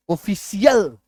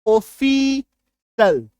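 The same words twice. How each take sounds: First: ऑफिशियल said as "ofisiyal", with the extra "ya" syllable; wrong pronunciation. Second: ऑफिशियल said slowly as "ofisal", ending in a clear "sal"; correct pronunciation. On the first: Retold or imitated. Teacher mimics students' habitual mispronunciation of ऑफिशियल. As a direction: imitate the common mistake, "ofi-si-yal". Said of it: "सीएल बोल के कोई उच्चारण नहीं होता है".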